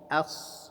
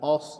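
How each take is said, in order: First: The vowel is light and open. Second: The vowel is heavy and rounded. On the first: The speaker calls it right. "tapi as ya" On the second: The speaker calls it wrong. "jangan os"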